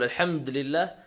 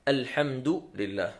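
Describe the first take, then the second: First: The d is followed by no vowel. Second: The d is followed by a short u. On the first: The speaker calls it wrong. "وليس بتسكينها" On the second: The speaker calls it right. "نضم حرف الدال"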